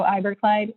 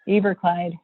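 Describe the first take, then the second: First: Iberclyde starting with an EYE sound; first vowel of Iberclyde as in "eye"; current pronunciation. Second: Eberclyde starting with an EE sound; first vowel of Eberclyde as in "see"; former pronunciation. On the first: Real, not acted. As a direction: say Iberclyde with a long I, like "eye-ber-clyde". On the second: Shown as a demonstration. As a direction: say Eberclyde with a long E, like "ee-ber-clyde". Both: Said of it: "I used to say Eberclyde".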